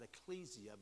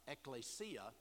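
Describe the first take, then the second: First: The word is pronounced in an anglicized way. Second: The word is pronounced in the Greek way. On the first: The speaker calls it wrong. "most people today will pronounce that ecclesia, but that's a mispronunciation. That's being informed by the English" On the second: The speaker calls it right. "The Greek is ekklesia"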